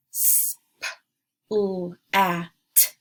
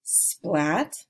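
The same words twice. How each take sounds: First: Splat broken into separate sounds s, p, l, a, t; each sound of "splat" isolated. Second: Said in the usual way. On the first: Shown as a demonstration. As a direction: sound out "S, p, l, a, t" with gaps. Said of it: "I'll say each sound". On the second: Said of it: "blend the word together".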